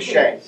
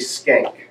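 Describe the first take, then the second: First: The name begins with an sh sound. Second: The name begins with an sk sound. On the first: This is the usual classroom way to say the name. "I've just always gone with Schenck" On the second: This is how the family says the name. "he said that it's technically skank"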